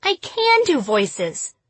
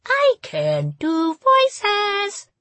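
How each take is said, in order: First: High, slow silly voice. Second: Very high, slow, each word a new pitch; changing pitch each word. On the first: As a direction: play it as a silly cartoon voice. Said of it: "She'll be doing voices all night now". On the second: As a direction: swoop the pitch on every word. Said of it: "I changed my pitch and tone with each word". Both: A narrator's reading.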